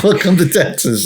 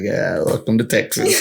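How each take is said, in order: First: "Welcome to Texas" said higher and louder, hitting "Welcome"; proud welcome. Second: Said in the usual way. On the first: Retold or imitated. Proudly greeting the stunned European friends, "Welcome" punched high and loud. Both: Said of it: "It's like".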